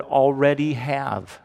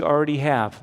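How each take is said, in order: First: ALREADY pulled apart and punched; stress on ALREADY. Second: Said in the usual way. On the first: Shown as a demonstration. Preacher emphasizing a word from the verse to the congregation, stress on already. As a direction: lean hard on each part of "already". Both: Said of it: "Let me emphasize the word".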